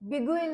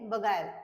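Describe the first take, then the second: First: The second syllable sounds like 'geel'. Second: The second syllable sounds like 'guile'. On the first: The speaker calls it wrong. "ते बिगुईल नाही आहे" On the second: The speaker calls it right. "काय आहे ते? बगायल"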